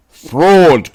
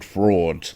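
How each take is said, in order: First: "Fraud!" cried out loud and high, falling hard; outraged shout from thousands of fans; angry crowd cry. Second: The crowd's cry returning as a distant echo; faint echo. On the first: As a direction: bellow it like a furious crowd. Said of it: "cried the maddened thousands". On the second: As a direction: let it come back faint from far off. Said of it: "An echo answered". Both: A narrator's reading.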